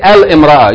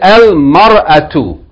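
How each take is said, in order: First: An 'i' vowel is kept between 'al' and 'm'. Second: The 'i' vowel is dropped, giving 'al-mar'a'. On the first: The speaker calls it wrong. "don't say al-imra'a" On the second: The speaker calls it right. "You say al-mar'atu. The hamza to wasl is dropped"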